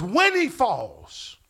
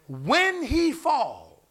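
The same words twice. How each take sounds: First: Slow, weighty, set apart from the sermon voice; emphatic reading. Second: Each word drawn out slowly; slow emphasis. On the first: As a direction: read it like a verdict, word by word. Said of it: "That's an emphatic". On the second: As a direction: lean hard on every word. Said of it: "Look what he says". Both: Shown as a demonstration.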